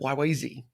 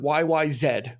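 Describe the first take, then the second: First: The last letter is pronounced 'zee'. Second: The last letter is pronounced 'zed'. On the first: This is the non-Canadian way of saying it. "instead of" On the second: This is how Canadians say it. "they say Z up in Canada"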